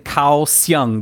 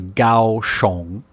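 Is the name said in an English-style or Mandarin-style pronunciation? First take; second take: English-style; Mandarin-style. First: The name is read as spelled, English style. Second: The name is said the local Mandarin way. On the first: Local listeners could not recognise the place. The speaker calls it wrong. "because I'm saying Kaohsiung" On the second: Local listeners would recognise the place. The speaker calls it right. "but it's actually Kaohsiung"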